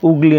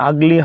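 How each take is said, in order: First: The first vowel is a rounded 'oo' sound. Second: The first vowel is an open 'uh' sound. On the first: The speaker calls it wrong. "উগলি নয়" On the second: The speaker calls it right. "আগলি হবে, this is right"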